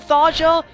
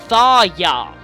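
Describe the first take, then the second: First: The middle consonant is a J sound. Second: The middle consonant is a Y sound. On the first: "I hear some people pronounce it Tharja" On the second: "I'm pronouncing the J like a Y"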